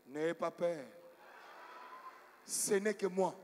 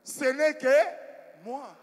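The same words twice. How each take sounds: First: Low, measured voice of a messiah; messianic voice. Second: Slow, loud and high, stretched out; loud insistence. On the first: Preacher playing Jesus to frightened people at night, messianic. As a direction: intone it low, like Christ calming the disciples. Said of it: "j'ai pris une voix messianique". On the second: Preacher revealing himself to the frightened pastor, loud and slow. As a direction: call it out slowly, drawing out each word. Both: Retold or imitated.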